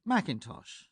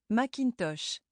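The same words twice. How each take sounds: First: Macintosh stressed on MAC; English stress. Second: Macintosh with every syllable equal; even French stress. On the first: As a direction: hit the first syllable of Macintosh. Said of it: "we always emphasize or stress one syllable". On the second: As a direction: give each part of Macintosh equal weight. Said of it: "stresses each part of the word equally". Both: Shown as a demonstration.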